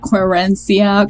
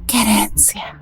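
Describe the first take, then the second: First: It is said with an American English accent. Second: It is said with a native Spanish accent. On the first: The speaker calls it wrong. "they tend to want to say them in like an American accent" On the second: The speaker calls it right. "as it's supposed to be pronounced"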